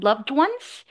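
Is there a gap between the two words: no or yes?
no. The two words run together without a gap. The speaker calls it right.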